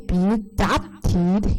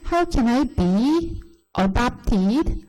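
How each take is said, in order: First: "be adopted" run together as bi-uh-DOP-tid; linked pronunciation. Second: Slow, word by word, BE apart from adopted; HOW CAN I BE each separate, then a-DOP-ted; unlinked old reading. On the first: Teacher shows what differs now, linking be adopted. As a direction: slide BE into adopted, land hard on DOP. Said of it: "비하고 어가 연음돼요". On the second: Teacher shows how she used to read, unlinked. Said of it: "이렇게 읽었을 거예요". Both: Shown as a demonstration.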